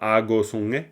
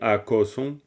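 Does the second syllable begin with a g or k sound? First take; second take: g; k. First: The second syllable begins with a voiced g. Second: The second syllable begins with a voiceless k. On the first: The speaker calls it wrong. "on dit pas ago songe" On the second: The speaker calls it right. "on dit a ko son ko"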